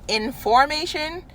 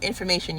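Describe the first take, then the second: First: It is split as 'in' plus 'formation'. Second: It is said as one ordinary word. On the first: Standing in a line or formation. "like in a line" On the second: Knowledge or facts in your head. "your head four one one"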